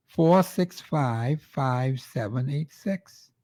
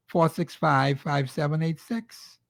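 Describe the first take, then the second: First: Very slow, digit by digit; slow dictation. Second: Said in the usual way. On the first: Shown as a demonstration. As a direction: spell the number out slowly for listeners to write down. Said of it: "repeats number slowly for listeners". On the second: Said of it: "gives his phone number".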